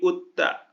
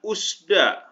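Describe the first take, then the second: First: The final consonant is said as t. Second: The final consonant is said as s. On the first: The speaker calls it right. "tapi utta ya dibacanya" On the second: The speaker calls it wrong. "bukan usda"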